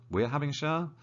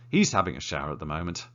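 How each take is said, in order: First: Rising, doubtful question on "We're having a shower?"; puzzled double take. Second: Said in the usual way. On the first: Shown as a demonstration. Teacher catching her own mistake, puzzled. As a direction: catch your own slip mid-sentence. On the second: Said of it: "Mistakes are good".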